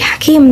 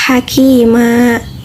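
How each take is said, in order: First: The word ends on the consonant m. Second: The word ends on a final a vowel. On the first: The speaker calls it wrong. "bukan menjadi hakim" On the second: The speaker calls it right. "tapi hakima"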